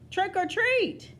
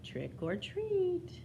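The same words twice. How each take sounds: First: It is said a little louder. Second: It is said very softly.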